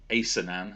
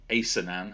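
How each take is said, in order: First: The middle consonant is a soft S sound. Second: The same.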